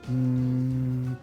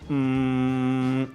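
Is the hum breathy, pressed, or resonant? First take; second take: breathy; pressed. First: The hum is airy with little buzz. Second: The hum is tight and squeezed. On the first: The vocal folds do not close properly. "una voz más aireada" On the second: The vocal folds close too hard. "una voz apretada"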